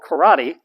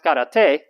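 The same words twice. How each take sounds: First: The word is pronounced the American English way. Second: The word is pronounced the original, non-American way. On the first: "people in the United States call karate" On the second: "I think it's supposed to be pronounced karate"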